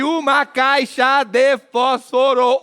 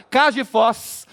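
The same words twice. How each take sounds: First: "uma caixa de fósforo" slowly, syllable by syllable; eight full syllables. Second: "Caixa de fós" squeezed to Mineiro "cax di fós"; Mineiro three syllables. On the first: Comedian counting syllables, "uma caixa de fósforo" slow and fully sounded. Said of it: "Oito, nunca". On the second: Comedian showing Minas speech, "Caixa de fós" contracted Mineiro-style. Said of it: "Três". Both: Shown as a demonstration.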